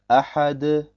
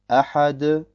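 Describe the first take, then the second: Both takes have the same delivery.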